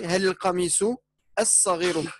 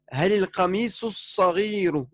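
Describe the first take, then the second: First: There is a pause before the last word. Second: The phrase flows on without a pause, words linked. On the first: "tu t'arrêtes et tu dis" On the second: "soit tu dis"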